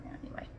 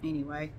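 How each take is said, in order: First: Whispered aside. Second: Said in the usual way. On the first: Real, not acted. Wrapping up the vlog, a whispered aside. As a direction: breathe the word out with no voice.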